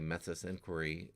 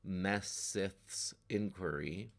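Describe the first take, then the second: First: The th sound is slurred, stumbling over the name. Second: The th sound is said crisply, with heavy emphasis. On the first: "that just sounds like gobbledygook" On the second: "obviously I'm putting a lot of emphasis on it"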